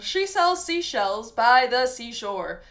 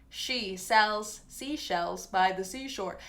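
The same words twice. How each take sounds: First: It is said in an exaggerated, newscaster-like accent. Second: It is said in a plain, natural accent. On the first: "I can even exaggerate it, like you might see on someone on the news" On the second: "resonance in the middle of the mouth"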